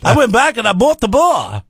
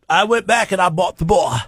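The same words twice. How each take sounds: First: It is spoken in an Irish-sounding accent. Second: It is spoken in an Australian-sounding accent. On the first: "What's what's an Irish accent sound like?" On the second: "he's Australian now"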